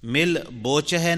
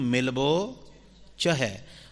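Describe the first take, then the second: First: Milbo is broken into two separate parts. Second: Milbo is said as one joined word. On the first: The speaker calls it wrong. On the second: The speaker calls it right.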